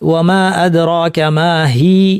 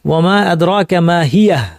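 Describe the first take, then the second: First: The last word stops short with no final vowel. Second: The last word ends with an added breathy h. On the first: The final vowel of the word is lost. "ওয়ামা আদরাকা মা হি বলে থেমে যেতে হবে" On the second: The final vowel of the word is kept audible. "হিয়া বলে থামলে"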